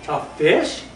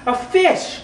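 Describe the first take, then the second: First: Said in the usual way. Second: High squeaky leap on "a fish"; sound poetry. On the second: Acted. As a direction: jump way up for "a fish". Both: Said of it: "a sound poem by me".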